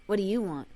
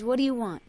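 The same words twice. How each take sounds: First: Lower, softer, flat suspicion; colder mom question. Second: A hint of a wary mother, slightly different timbre; mom's suspicious question. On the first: Retold or imitated. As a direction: cut the warmth out and ask it low. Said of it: "More like". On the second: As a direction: ask it like you suspect a trick. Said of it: "and says".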